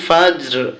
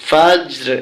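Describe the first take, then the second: The two takes are said the same way.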